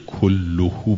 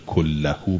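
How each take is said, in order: First: The vowel after the double L is 'u'. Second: The vowel after the double L is 'a'. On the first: Not all of the sin is on the speaker; some may be. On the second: None of the sin is on the speaker at all.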